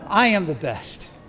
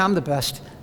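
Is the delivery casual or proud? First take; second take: proud; casual. First: It is said with a big, puffed-up breath. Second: It is said lightly and offhandedly. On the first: "you have to take a breath and hold your chest out" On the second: "You can't just say, oh yeah"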